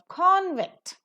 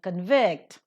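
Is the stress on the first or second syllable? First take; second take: first; second. First: The stress is on the first syllable. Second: The stress is on the second syllable. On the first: It is used as a noun. "being pronounced as a noun" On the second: It is used as a verb. "being pronounced as a verb"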